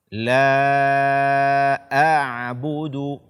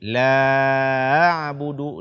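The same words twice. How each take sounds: First: The glottal stop before a'budu is clearly heard. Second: The glottal stop before a'budu is barely heard. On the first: The speaker calls it right. "bacalah hamzah ini dengan jelas" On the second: The speaker calls it wrong. "tidak membaca hamzah dengan jelas ... ini tidak dibenarkan"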